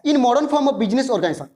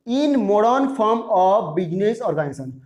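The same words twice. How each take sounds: First: Said in the usual way. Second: Slow, separated words; measured word-by-word reading; slow dictation. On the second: Shown as a demonstration. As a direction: repeat it slowly for writing down. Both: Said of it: "थोड़ा slowly बोल रहा हूँ".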